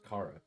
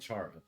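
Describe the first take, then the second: First: The name begins with a hard K sound. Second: The name begins with a CH sound. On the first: This is how most people say the name. "the first child's name is pronounced Kara" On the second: This is how the speaker used to say the name. "I was saying Chara"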